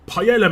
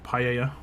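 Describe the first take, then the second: First: The L sound is clearly pronounced. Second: The L sound is left out. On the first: "if I'm gonna pronounce it in a British way" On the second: "I think it's paella. Don't pronounce the L's"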